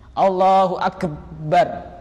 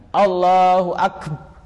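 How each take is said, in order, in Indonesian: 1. Huruf b pada Akbar dikeraskan dan dirangkap. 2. Huruf b pada Akbar pendek dan tunggal. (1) "jadi sampai dikeraskan ... seakan-akan ada tasydidnya. Tidak sah" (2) "tidak ditasydid ba-nya"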